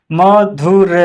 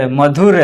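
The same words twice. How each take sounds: First: "मधुर" stretched into separate syllables. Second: Said in the usual way. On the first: Shown as a demonstration. Teacher spelling out an example, "मधुर" slow and split. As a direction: sound out "मधुर" piece by piece.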